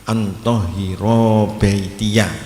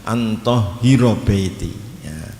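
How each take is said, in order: First: The vowel after the r is held long. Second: The vowel after the r is cut short. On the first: The speaker calls it right. "roknya dibaca panjang" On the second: The speaker calls it wrong. "ini sering dibaca"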